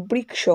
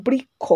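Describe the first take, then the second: First: বৃক্ষ said the Sanskrit way, "briksho"; Sanskrit pronunciation. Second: বৃক্ষ said the Bengali way, "brikkho"; Bengali pronunciation. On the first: Teacher shows students Sanskrit pronunciation of বৃক্ষ as "briksho". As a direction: say বৃক্ষ with "k" then "sh", softly. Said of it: "সংস্কৃত উচ্চারণ রীতি অনুযায়ী ওটি হবে". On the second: Teacher shows students Bengali pronunciation of বৃক্ষ as "brikkho". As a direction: say বৃক্ষ with a doubled "kkh" sound, no "sh". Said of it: "বাংলায় বৃক্ষ শব্দের উচ্চারণ হয়". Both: Shown as a demonstration.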